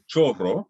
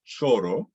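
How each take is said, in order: First: CHORRO with the Spanish double R; CHORRO, R held longer than a single tap. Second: CHORO with one tapped Spanish R; CHORO, single tap, rising end. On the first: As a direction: attempt a longer, stronger R in "chorro". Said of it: "what's written as a double R". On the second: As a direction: say "choro" slowly, flicking the R just once. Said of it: "so if you say". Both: Shown as a demonstration.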